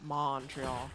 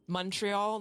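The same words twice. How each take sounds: First: The first syllable rhymes with fawn. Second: The first syllable rhymes with fun. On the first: The speaker is not from Montreal. The speaker calls it wrong. "not fawn" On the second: The speaker is from Montreal. The speaker calls it right. "the first syllable rhymes with fun"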